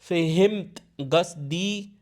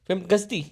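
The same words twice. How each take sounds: First: The words are said slowly and separately. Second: The words are run together quickly. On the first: The speaker calls it wrong. "वो ये नहीं कहते" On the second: The speaker calls it right. "वो क्या कहेंगे?"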